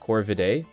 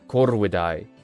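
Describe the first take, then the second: First: The R is not rolled; V sounds like V. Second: The R is rolled; V sounds like W. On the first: This is how the word is said today. "We pronounce it today as Corvidae" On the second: This is how the word was said in classical Latin. "the V turns into a W and you have to roll the R"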